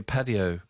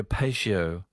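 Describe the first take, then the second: First: "patio" said as PAT-ee-oh; patty-oh pronunciation. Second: "patio" said as PAY-shee-oh; pay-shio pronunciation. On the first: Radio host rereading a listener's letter, "patio" as PAT-ee-oh. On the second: Radio host unsure of a word in a listener's letter, "patio" as PAY-shee-oh. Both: Shown as a demonstration. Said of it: "is it a patio or patio?".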